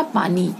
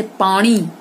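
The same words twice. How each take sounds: First: Said in the usual way. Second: पानी with retroflex "n"; wrong nasal. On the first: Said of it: "क्या होगा". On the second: Shown as a demonstration. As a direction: curl the n of पानी back, "paaṇi". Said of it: "पानी नहीं होगा".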